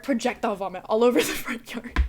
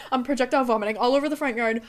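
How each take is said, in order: First: Said in the usual way. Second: Rushed repeat. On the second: Shown as a demonstration. Faster retelling of puking on the front yard. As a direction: rush it out in disbelief. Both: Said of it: "repeats it faster".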